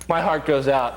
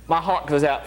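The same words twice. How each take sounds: First: It is said in the speaker's ordinary American accent. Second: It is said in an imitated Australian accent.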